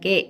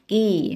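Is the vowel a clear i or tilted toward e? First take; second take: e-like; clear i. First: The vowel is tilted toward an e sound. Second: The vowel is a clear, straight i sound. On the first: The speaker calls it wrong. "bukan ke" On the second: The speaker calls it right. "Ki, bukan ke"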